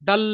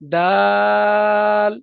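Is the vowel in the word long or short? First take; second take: short; long. First: The vowel is short, not drawn out. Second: The vowel is drawn out long. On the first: The speaker calls it wrong. "অনেকে বলে দাল" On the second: The speaker calls it right. "এখানে তিন আছে, দাল বলে টানতে হবে"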